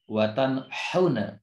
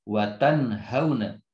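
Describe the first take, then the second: First: The h is a harsh sound from the mid throat. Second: The h is a light sound from the deepest throat. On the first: The speaker calls it wrong. "itu tertukar makharijnya" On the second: The speaker calls it right. "makharijnya dari aqsal halki bersama-sama dengan hamzah"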